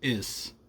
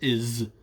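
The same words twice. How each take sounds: First: The word ends with an s sound. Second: The word ends with a z sound. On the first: "saying is instead of is" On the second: "instead of is"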